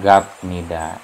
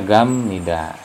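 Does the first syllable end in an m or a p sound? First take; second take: p; m. First: The first syllable ends in a p sound. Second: The first syllable ends in an m sound. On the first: The speaker calls it wrong. "tidak gap nida" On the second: The speaker calls it right. "Ini dibacanya gam nida"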